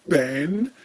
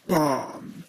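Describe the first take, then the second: First: The vowel is a short flat 'a' sound. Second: The vowel is a long 'ah' sound.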